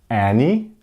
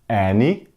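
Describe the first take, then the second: Both takes have the same delivery.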